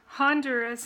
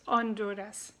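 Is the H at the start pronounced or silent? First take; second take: pronounced; silent. First: The opening H sound is pronounced. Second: The opening H sound is silent. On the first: "in English" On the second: "H is silent, so you don't pronounce that. ... in Spanish"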